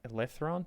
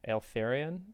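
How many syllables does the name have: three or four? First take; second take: three; four. First: The name is said with three syllables. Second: The name is said with four syllables. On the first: The speaker calls it wrong. "I used to think it's Tales of um" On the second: The speaker calls it right. "but it's actually Eltharion"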